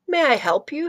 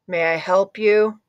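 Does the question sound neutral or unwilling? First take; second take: neutral; unwilling. First: The question sounds neutral and plain. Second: The question sounds grudging and unwilling.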